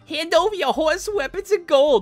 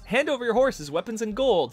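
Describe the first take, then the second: First: It is said in a put-on goblin voice. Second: It is read in a plain, normal voice.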